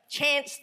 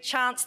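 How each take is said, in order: First: Chance with a flat American "a", like "chanse"; plain. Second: Chance with a broad Kiwi "ah", like "Chahnce"; Kiwi pronunciation. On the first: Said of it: "I said Chance". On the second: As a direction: say Chance the New Zealand way, open "ah". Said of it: "notice I say Chance". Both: Real, not acted.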